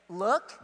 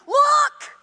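First: Said in the usual way. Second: "Look!" shouted high and loud; exclamation shout. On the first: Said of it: "if it says". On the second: Shown as a demonstration. Preacher showing the exclamation with a shout. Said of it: "with an exclamation mark".

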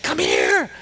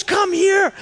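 First: Said in the usual way. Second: High-pitched, imitated urgent call; insistent summons. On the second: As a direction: act out a friend demanding attention. Friend insists a second time.

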